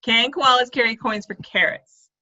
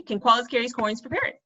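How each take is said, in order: First: Slow, getting "carrots" right; careful correct take. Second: "parrots" slipped in for "carrots"; tongue slip on parrots. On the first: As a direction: say it slowly and land "carrots" correctly. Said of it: "but it's carrots". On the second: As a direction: let "parrots" slip out by mistake. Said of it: "See, I almost said parrots". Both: Shown as a demonstration.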